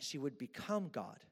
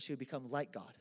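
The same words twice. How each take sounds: First: Said in the usual way. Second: "like" picked out as the key word; stress on like. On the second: Shown as a demonstration. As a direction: lean on the word "like" to mark the difference. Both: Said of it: "I wanna emphasize the word like".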